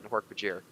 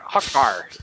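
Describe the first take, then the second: First: The name is said in full with three syllables. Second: The name is shortened to two quick syllables. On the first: This is the proper form of the name. The speaker calls it right. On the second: This is how it was said as a child. The speaker calls it wrong.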